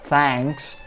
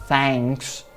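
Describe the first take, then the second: Both takes have the same delivery.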